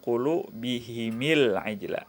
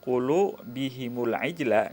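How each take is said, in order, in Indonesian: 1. Bunyi vokal setelah huruf m adalah i. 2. Bunyi vokal setelah huruf m bukan i.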